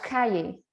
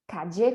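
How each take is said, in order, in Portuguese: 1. O duplo L soa como 'y'. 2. O duplo L soa como 'dj'. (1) "com som de I" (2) "com som de D J"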